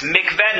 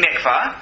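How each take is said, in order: First: "Mikveh" said with a final "-eh", mik-VEH, the word for hope; Mikveh, meaning hope. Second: "mikvah" ending in an open "ah", MIK-vah, the ritual bath. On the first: Teacher to class, showing the word for hope: "Mikveh" with "eh". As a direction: stress "Mikveh" as mik-VEH ending in "eh", not "ah". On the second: Teacher to class, the contrasting word: "mikvah" ending in "ah". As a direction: say "mikvah" with "ah" at the end, set apart from mikveh. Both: Shown as a demonstration. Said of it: "not meaning mikvah".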